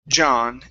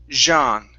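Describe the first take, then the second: First: The J is hard and short. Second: The J is soft, like a French J. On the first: The speaker calls it right. "the J is is pretty uh, tough and it's short" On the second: The speaker calls it wrong. "a very French way to pronounce that"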